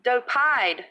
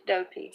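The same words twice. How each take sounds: First: "Dopide" with a long I ending; doh-PIDE, a corrected try; corrected name. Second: "Dopede" with a rhyme on pede; doh-PEED, an unsure try at the name; first guess at the name. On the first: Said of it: "Is it long O or short O?". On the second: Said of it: "Pronounce the P not as an F". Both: Shown as a demonstration.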